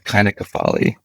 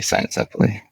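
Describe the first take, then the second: First: It is said in restored classical Latin style. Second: It is said in ordinary English style. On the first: This is the scholarly ancient pronunciation. "using the restored classical Latin, it would be the kynocephaly" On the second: This is the pronunciation people normally use. "we just say cynocephaly"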